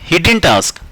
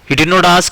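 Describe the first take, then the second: First: Did not is contracted into one syllable group. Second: Did and not are said as two words. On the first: "डिड नॉट को आप short में डिडंट भी कह सकते हैं" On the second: "आप इसको डिड नॉट भी कह सकते हो"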